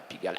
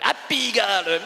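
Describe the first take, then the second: First: Said in the usual way. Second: Exclaimed. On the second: Shown as a demonstration. The guest proudly naming the district to the host, exclaimed. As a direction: call out the name Pigalle with a sudden lift.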